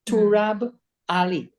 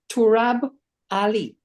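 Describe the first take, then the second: The two takes are said the same way.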